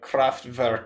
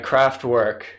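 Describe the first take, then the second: First: The name is said with German-like sounds. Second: The name is said with English sounds. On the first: "the correct pronunciation, which is like Kraftwerk or something" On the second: "I don't speak German"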